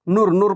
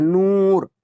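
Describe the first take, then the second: First: नूर with a short, quick oo; not drawn out. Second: नूर held long on the oo; drawn-out vowel. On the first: Teacher showing how not to read it, नूर cut short. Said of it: "नहीं, नहीं पढ़ोगे ना". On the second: Teacher models the waw maroof sound, नूर stretched long. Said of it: "इसको खींच कर पढ़ा जा रहा है". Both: Shown as a demonstration.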